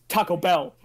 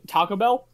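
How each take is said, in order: First: Taco Bell slowed, leaning on O and Bell; overstressed Taco Bell. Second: Taco Bell with a light, unstressed middle; one smooth Taco Bell. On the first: Retold or imitated. Mimicking co-host's version, Taco Bell with heavy O and Bell. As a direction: hit the O and the Bell separately in Taco Bell. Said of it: "too much emphasis on the O and on the bell". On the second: Shown as a demonstration. Correcting co-host's emphasis, Taco Bell in one smooth motion. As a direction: glide through Taco Bell as one word. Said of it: "just one smooth Taco Bell".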